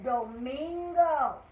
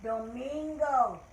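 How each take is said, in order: First: Domingo stretched slowly, do-min-go; slow Spanish word. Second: Domingo drawn out again, do-min-go; Domingo slow and clear; slow Spanish word. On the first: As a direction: model Domingo slowly for the class. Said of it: "Let's start again". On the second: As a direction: lead the class through Domingo slowly. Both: Shown as a demonstration.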